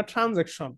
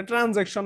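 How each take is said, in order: First: "ট্রানজ্যাকশন" with the first ট turned into breathy-released ঠ; aspirated TH pronunciation. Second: "ট্রানজ্যাকশন" begun with unaspirated ট; hard T pronunciation. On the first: Teacher gives students the corrected word, "ট্রানজ্যাকশন" with initial aspirated ঠ. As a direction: aspirate the opening consonant of "ট্রানজ্যাকশন" as ঠ. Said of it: "মানে ঠ". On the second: Teacher repeats what not to say, "ট্রানজ্যাকশন" with unaspirated ট. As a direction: give "ট্রানজ্যাকশন" a plain T, without breath after it. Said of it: "ট্রানজ্যাকশন মানে ঠ". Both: Shown as a demonstration.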